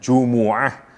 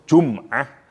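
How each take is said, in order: First: The m is followed by an u vowel. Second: The m is followed by no vowel. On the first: "Satu bisa dibaca dengan Jumu'ah" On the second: "bisa dibaca dengan sukun"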